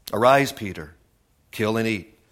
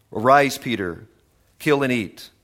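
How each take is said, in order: Both takes have the same delivery.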